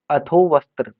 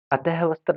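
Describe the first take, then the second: First: अथो वस्त्र with an o ending the first word; correct form. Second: अतः वस्त्र with "ah" ending the first word; wrong form demonstrated. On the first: Teacher correcting the word for students, careful अथो वस्त्र. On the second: Teacher showing students the error, mistaken अतः वस्त्र. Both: Shown as a demonstration. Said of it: "अतः वस्त्र नहीं".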